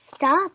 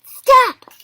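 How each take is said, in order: First: Raised, milder echo; echoed command. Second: Very high, loud yell; sharp command. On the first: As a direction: repeat it while still spinning. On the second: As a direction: halt them with one shout. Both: A narrator's reading. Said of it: "said as he kept spinning".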